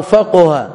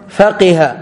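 First: فقه said "faquha", u-vowel after the qaf; "qu" in the middle of فقه; damma on the qaf. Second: فقه said "faqiha", i-vowel after the qaf; "qi" in the middle of فقه; kasra on the qaf. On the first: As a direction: pronounce فقه as fa-QU-ha. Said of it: "وقيل بضمها". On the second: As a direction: pronounce فقه as fa-QI-ha. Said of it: "بكسر القاف". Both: Shown as a demonstration.

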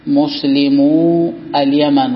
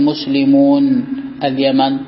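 First: Muslimu ending on a drawn-out long u, slow; without final nun. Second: Muslimun with a sounded final n, slow; nun wrongly kept. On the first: Teacher showing the annexed plural, "مسلمو" slowly without its nun. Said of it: "فإذا أضفت تقول". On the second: Teacher showing the forbidden form, "مسلمون" slowly with its nun. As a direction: say "مسلمون" slowly, keeping the n at the end. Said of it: "ولا تقول". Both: Shown as a demonstration.

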